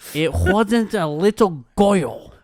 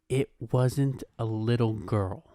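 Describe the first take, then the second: First: It is said in a put-on, Gru-like accent. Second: It is said in a plain, normal voice.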